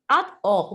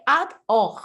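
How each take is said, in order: First: The two parts are said separately with a break. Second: The two parts are said separately with a break.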